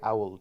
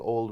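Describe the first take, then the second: First: The word is said in an Irish accent. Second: The word is said in a standard accent. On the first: "In Ireland, we say owled" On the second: "instead of saying old"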